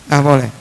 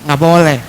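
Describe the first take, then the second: Both takes have the same delivery.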